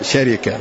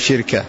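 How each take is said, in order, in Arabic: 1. الحركات تتبع وزن كلمة namira. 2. الحركات تتبع وزن كلمة hikma. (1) "وإذا كانت بوزن نمرة تقول شركة" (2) "وإذا كانت بوزن حكمة تقول شركة"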